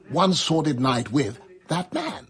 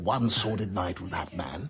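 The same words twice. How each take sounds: First: There is a pause partway through the phrase. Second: The phrase flows without any pause inside it. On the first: The speaker calls it wrong. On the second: The speaker calls it right.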